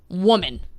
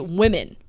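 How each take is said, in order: First: The plural is said like the singular 'woman'. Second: The plural is said with the usual 'women' sound. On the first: This is how the other host says the plural. "you say the plural of woman, woman" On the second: This is how the speaker says the plural. "And I say women"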